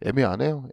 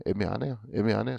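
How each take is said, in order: First: Said in the usual way. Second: Much softer and lower, under the breath; quiet low musing; muttered to self. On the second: Real, not acted. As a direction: mutter it to yourself, puzzled.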